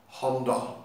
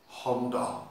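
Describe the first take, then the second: No difference in how they are said.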